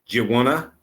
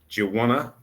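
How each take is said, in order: Both takes have the same delivery.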